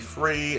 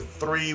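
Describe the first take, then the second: First: The word begins with an f sound. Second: The word begins with a th sound. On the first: The speaker calls it wrong. "It sometimes came out as an F" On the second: The speaker calls it right. "I also couldn't pronounce a TH"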